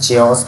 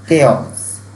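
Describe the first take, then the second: First: The word begins with a 'ch' sound. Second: The word begins with a 'k' sound. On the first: The speaker calls it wrong. "काफ़ी लोगों ने इसे चेओस pronounce किया होगा" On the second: The speaker calls it right. "इसकी जो correct pronunciation है वो है केओस"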